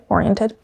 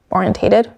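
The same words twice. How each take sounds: First: "Oriented" without the "-tate-" syllable, softer; shorter word form. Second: "Orientated" with the extra "-tate-" syllable; questioned word form. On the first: Checking which word is right, "Oriented" said as the short form. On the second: Checking which word is right, "Orientated" said as the long form. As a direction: try out "Orientated" in its longer form. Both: Real, not acted. Testing two forms of a word.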